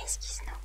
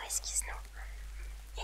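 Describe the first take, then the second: First: Said in the usual way. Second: Slow whisper. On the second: Shown as a demonstration.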